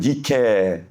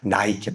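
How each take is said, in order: First: The word is said as two syllables, nee-keh. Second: The word is said with a gliding vowel, nai-kee. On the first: This is the original Greek form. "헬라어로는 니케 돼 있는데" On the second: This is the English-style form. "영어식 발음으로는 나이키"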